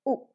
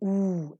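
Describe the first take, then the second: First: The word is said lightly with a reduced vowel. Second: The word is said fully with a long vowel. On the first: "reduced to its weak form" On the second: "The stronger form of you"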